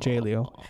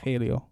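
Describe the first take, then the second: First: The name begins with an English J sound. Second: The name begins with an H sound. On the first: The speaker calls it wrong. "Not J-Leo" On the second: The speaker calls it right. "Because the J in Spanish is pronounced an H"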